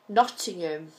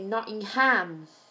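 First: The final syllable 'ham' is unstressed. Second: The final syllable 'ham' is stressed.

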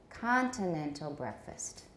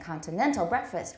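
First: The main stress in 'continental' falls on 'con'. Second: The main stress in 'continental' falls on 'nen'. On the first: The speaker calls it right. "we say continental breakfast" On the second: The speaker calls it wrong. "instead of saying continental breakfast"

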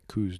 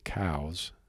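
First: The vowel rhymes with 'coos'. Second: The vowel rhymes with 'cows'. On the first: The speaker calls it wrong. "most people call it coos deer" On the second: The speaker calls it right. "I'm going to say it correctly"

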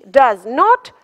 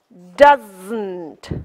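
First: Said in full as two words. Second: Contracted to one word with a burst.

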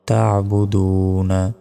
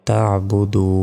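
First: The word ends with the syllable na. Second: The word ends without the final syllable. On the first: The recitation continues without stopping. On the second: The recitation stops at this word.

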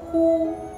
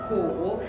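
First: The syllable has a high level tone. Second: The syllable has a low dipping tone. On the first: "we pronounce the first tone" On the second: "虎 is the third tone"

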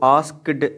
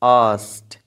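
First: The k and d sounds are both pronounced. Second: The k is silent and it ends in t. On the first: The speaker calls it wrong. "इसको आस्क्ड नहीं बोलना होता" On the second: The speaker calls it right. "यहाँ पे के silent है और डी टी के साउंड से चेंज हो जाएगी"

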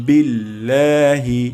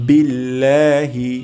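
The two takes are said the same way.

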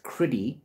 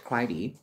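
First: The first syllable has a short 'i' vowel. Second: The first syllable has a long 'eye' vowel. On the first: This is how someone else says it. "He pronounces it as Criddy" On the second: This is how the speaker would say it. "So I would have pronounced Crydee"

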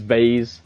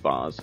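First: It is said with an American pronunciation. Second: It is said with a posh southern English pronunciation. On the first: "American English, it's vase" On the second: "being the posh southern boy I am, says Vaz"

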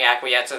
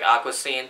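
First: The word is said as acquiescence. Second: The word is said as aqua scene. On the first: The speaker calls it right. "instead of saying Acquiescence" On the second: The speaker calls it wrong. "I pronounced it wrong during most of the film"

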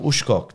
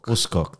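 First: The name is said with an 'sh' sound. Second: The name is said without an 'sh' sound. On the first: The speaker calls it wrong. "You don't have to put the sh in that one" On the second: The speaker calls it right. "there we go"

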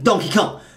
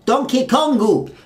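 First: The name ends on Kong with no vowel. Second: The name ends with an added 'u' vowel. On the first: This is the English way of saying the name. "we just say, who's that? Donkey Kong" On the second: This is the Japanese way of saying the name. "it's not Donkey. It's Donkey Kongu"

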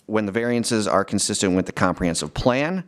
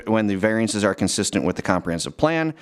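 No difference in how they are said.

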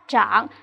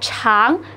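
First: The word begins with a zh sound. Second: The word begins with a ch sound. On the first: It means to grow. "ZH trảng" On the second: It means long. "nếu đọc là trảng thì nó có nghĩa là dài"

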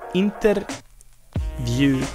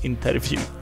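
First: The word is said without a v sound. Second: The word is said with a v sound. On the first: The speaker calls it wrong. "deswegen sagen wir oft Interview" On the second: The speaker calls it right. "statt Interview"

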